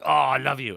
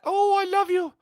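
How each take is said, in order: First: It is said in a male voice. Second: It is said in a put-on female voice.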